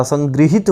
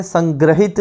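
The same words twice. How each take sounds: First: संगृहित with "gri" in the middle; correct संगृहित. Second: संग्रहित with "gra" in the middle; mispronounced संग्रहित. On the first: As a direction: say संगृहित as san-GRI-hit. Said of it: "संगृहित होता है". (संगृहित में 'गृ' बोलें) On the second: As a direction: say संग्रहित as san-GRA-hit. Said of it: "संग्रहित नहीं होता". (संग्रहित में 'ग्र' बोलें) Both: Shown as a demonstration.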